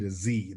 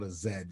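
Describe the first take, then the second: First: The letter is said the American way, zee. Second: The letter is said the British way, zed.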